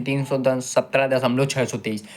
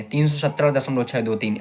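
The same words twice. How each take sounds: First: छः सौ तेईस read as one whole number; wrong decimal reading. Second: छः दो तीन read digit by digit after दशमलव; correct decimal reading. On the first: Teacher demonstrating the wrong way students read decimals. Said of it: "ऐसे नहीं पढ़ेंगे". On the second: Teacher showing students the right way to read decimals, digit by digit. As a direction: say each digit of छः दो तीन separately, clearly. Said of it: "ऐसे नहीं पढ़ेंगे कि". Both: Shown as a demonstration.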